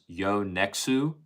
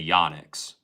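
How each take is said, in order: First: The word ends with an added 'oo' vowel. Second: The word ends on the 'ks' sound. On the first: This is the original Japanese way. "officially pronounced Yonexu, but just because it's Japanese" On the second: This is how most people in the US say it. "if you're in the U S ... then people say Yonix"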